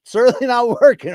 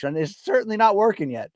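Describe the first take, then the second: First: Laughs through it, high and loud; laughing at his failed mustache trim. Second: Said in the usual way. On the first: Real, not acted. To the chat about his mustache, laughing.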